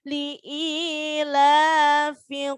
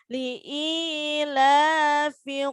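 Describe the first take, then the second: Both takes have the same delivery.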